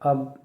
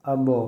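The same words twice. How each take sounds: First: The final consonant stops flat without an echo. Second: The final consonant is released with an echoing bounce. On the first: "बग़ैर कलकला के" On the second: "कलकला के साथ"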